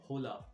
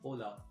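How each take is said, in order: First: The initial H is pronounced aloud. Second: The initial H is silent. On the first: The speaker calls it wrong. "You don't say hola" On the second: The speaker calls it right. "The initial H is silent"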